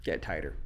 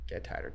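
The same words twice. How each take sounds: First: Low, soft repeat of the advice; muttered advice. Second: The repeat trails off, much softer; fading whisper. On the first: Producer coaching guitarists, low and soft. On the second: Producer coaching guitarists, fading to a near whisper. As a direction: let the repeat die away almost to nothing. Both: Shown as a demonstration. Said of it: "It's like".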